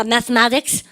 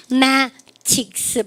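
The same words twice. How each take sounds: First: Said in the usual way. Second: MATHEMATICS drawn out, broken into slow syllables. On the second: Shown as a demonstration. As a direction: split "mathematics" slowly into separate chunks. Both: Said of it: "발음 그러니까 mathematics".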